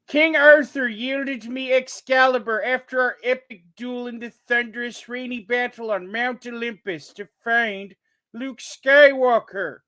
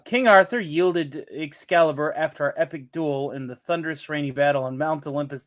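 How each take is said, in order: First: It is read in a put-on character voice. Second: It is read in his normal voice.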